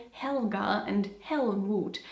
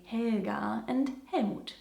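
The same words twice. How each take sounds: First: Helga and Helmut with a clear English "hel"; English pronunciation. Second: Helga and Helmut said as Germans do, slowly; German pronunciation. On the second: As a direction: give Helga and Helmut their native German sounds. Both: Shown as a demonstration. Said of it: "even though Germans, of course, say".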